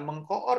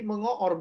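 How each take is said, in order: First: The k sound after meng is kept. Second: The k sound after meng is dropped. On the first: The speaker calls it wrong. "bukan mengkoor" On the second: The speaker calls it right. "Jadi mengoor bukan mengkoor ya"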